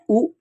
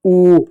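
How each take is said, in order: First: "ऊ" said short, as a quick "u"; short "ऊ" set against the long one; short vowel. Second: "ऊ" held long, a drawn-out "oo"; long "ऊ" set against the short one; long vowel. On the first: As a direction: keep "ऊ" brief, like उ. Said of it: "छोटा ऊ". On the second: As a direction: stretch "ऊ" steadily. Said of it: "उसके बाद आता है बड़ा ऊ". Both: Shown as a demonstration.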